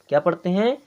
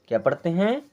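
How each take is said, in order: Both takes have the same delivery.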